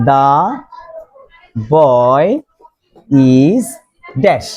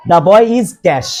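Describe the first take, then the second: First: Put-on "the", "boy", "is", "dash", each alone with long pauses; one word, then wait: "the... boy... is... dash"; word-by-word dictation. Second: Said in the usual way. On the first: Shown as a demonstration. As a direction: dictate "the boy is dash" at writing speed, lower on "boy" and "is". Teacher dictates example word by word.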